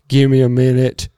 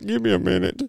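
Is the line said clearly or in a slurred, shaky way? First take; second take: clearly; slurred. First: It is said clearly and steadily. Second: It is said slurred and shaky.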